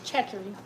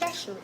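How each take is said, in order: First: The name is said with a non-Louisiana pronunciation. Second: The name is said with the Louisiana pronunciation. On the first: The speaker calls it wrong. "I need to even say it wrong so I can remember how I said it" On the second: The speaker calls it right. "that's what somebody from Louisiana told me"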